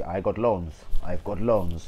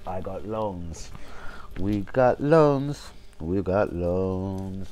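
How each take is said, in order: First: Put-on Spanish-accented manager voice, quick; light mock Spanish accent, brisk delivery; Emery impression. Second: Put-on Spanish accent, very slow, each word stretched; mock a foreign coach, dragging every word out; slow, exaggerated Spanish-accented drawl; drawn-out Emery impression. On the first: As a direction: mimic a foreign coach saying it plainly. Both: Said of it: "Emery a couple of se".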